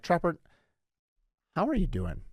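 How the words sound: It sounds like a sincere, caring question.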